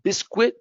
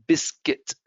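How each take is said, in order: First: "Biscuit" said BIS-kwit, U pronounced; high rising "Biscuit" with a kw; wrong, U sounded. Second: "biscuit" said BIS-kit; plain falling "biscuit"; correct form. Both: Shown as a demonstration.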